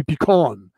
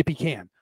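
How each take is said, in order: First: Pecan with a broad AH; pecan, second syllable like "kahn"; pecan as pee-KAHN. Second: Pecan with the A of "can"; pecan, second syllable like "can"; pecan as pee-KAN. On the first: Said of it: "is that supposed to be pecan". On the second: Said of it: "I say pecan". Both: Shown as a demonstration.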